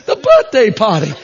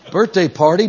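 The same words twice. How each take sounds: First: R-less Northeastern "birthday party", high and insistent; BIRTHDAY PARTY with dropped r's, Northeast accent. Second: Said in the usual way. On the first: Retold or imitated. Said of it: "heavy accented women". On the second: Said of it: "Oh, the party".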